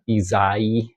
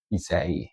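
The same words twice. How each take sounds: First: Isai said slowly as ee-ZAI with a Z; Z sound. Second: Isai said ee-SAY with a soft S; S sound. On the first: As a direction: drag out Isai with a buzzing Z. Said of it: "I almost say it with a Z". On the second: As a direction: say Isai with a clean S, not a Z. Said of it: "it's probably an S sound". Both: Shown as a demonstration.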